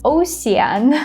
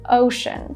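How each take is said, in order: First: The middle consonant is not an sh sound. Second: The middle consonant is an sh sound. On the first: The speaker calls it wrong. "this word is not pronounced ocean" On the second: The speaker calls it right. "it's pronounced as ocean"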